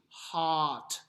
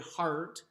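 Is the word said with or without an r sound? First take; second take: without r; with r. First: The vowel is open with no r sound. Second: The vowel is colored by an r sound. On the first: The speaker calls it right. "H A H T" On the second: The speaker calls it wrong. "We don't say heart"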